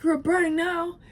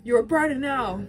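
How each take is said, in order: First: Much higher, louder harsh jab; cutting Ellie. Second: Higher, louder harsh jab; cussing out Dina. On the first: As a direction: fling the insult at her. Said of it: "Ellie's like". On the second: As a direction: throw it at her as an insult. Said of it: "cusses out Dina". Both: Retold or imitated.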